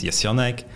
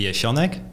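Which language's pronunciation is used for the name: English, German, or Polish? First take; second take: German; Polish. First: The name is said with a German pronunciation. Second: The name is said with a Polish pronunciation. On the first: "the German pronunciation is" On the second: "the Polish pronunciation would be"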